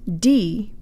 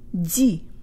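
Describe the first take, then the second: First: The syllable sounds like an English dee. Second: The syllable has a soft, fronted Russian sound. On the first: The speaker calls it wrong. "Not D" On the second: The speaker calls it right. "but ди"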